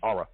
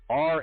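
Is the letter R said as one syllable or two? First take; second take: two; one. First: The letter is drawn out into two syllables. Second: The letter is said as one short syllable. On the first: A relative says it this way. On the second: This is the speaker's own usual way.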